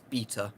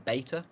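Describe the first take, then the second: First: It is said with a British pronunciation. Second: It is said with an American pronunciation. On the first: "I'm saying it as beta because I'm in the U K" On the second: "I think Americans say beta"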